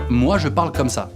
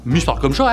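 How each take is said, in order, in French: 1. Elle est dite avec la prononciation du français standard. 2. Elle est dite avec la prononciation du ch'ti. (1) "ça veut dire" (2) "Si je vous dis"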